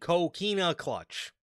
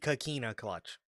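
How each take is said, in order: First: The first syllable sounds like 'ko'. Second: The first syllable sounds like 'ka'. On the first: The speaker calls it right. "it's called the Kokina clutch" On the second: The speaker calls it wrong. "not the Kakina clutch"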